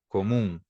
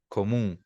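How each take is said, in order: Both takes have the same delivery.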